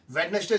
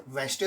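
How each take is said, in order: First: वेडनेसडे read out letter by letter as written, Wed-nes-day; वेडनेसडे sounded out with every written syllable; spelling pronunciation. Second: वेडनेसडे said as Wenzday, middle syllable dropped; वेडनेसडे spoken the real way, short Wenzday; correct pronunciation. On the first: Teacher shows students how वेडनेसडे is spelt, said as written. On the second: Teacher tells students how वेडनेसडे is really pronounced. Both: Shown as a demonstration. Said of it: "इसका उच्चारण वेडनेसडे होता है".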